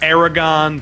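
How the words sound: The name is said with an American pronunciation. "the Americanized Aragon"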